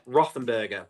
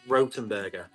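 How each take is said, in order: First: The middle consonant is a soft th sound. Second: The middle consonant is a plain t sound. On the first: This is how it is commonly but mistakenly said. The speaker calls it wrong. "That's what I have always said" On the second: This is how the brand itself says it. The speaker calls it right. "but actually it's"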